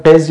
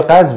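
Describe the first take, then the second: First: "قز" with an E, as qez; pronunciation variant. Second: "قز" with an A, as qaz; pronunciation variant. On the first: Teacher guessing at another form of the word, qez. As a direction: say "قز" as qez, short E vowel. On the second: Teacher guessing at another form of the word, qaz. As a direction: say "قز" as qaz, open A vowel. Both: Shown as a demonstration. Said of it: "شاید هم قز یا قز باشه".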